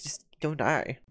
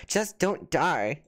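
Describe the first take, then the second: First: Said in the usual way. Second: Drawn out slowly, word by word; slow reading aloud. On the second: Shown as a demonstration. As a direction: read the chat comment very slowly. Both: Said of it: "I love what people are saying".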